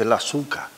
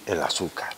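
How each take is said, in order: First: "azúcar" as "asuca", softer; softly, "azúcar" with no R; Canarian dropped R. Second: "el azúcar" quietly, with the final R; soft "el asúcar", R at the end; standard form. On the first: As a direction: leave "azúcar" open on a final A. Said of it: "porque no se dice". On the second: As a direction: close "azúcar" on a light R. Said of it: "Deberíamos de decir". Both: Shown as a demonstration.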